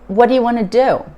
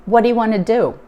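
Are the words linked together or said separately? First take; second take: linked; linked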